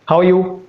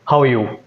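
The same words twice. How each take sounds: First: The pitch stays level from start to end. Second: The pitch starts high and falls at the end. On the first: The speaker sounds neutral. "Neutral is like this. ... starting at the same pitch and ending at the same pitch" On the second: The speaker sounds dominant. "Dominant is like this. ... it starts at a higher pitch and it ends at a lower pitch"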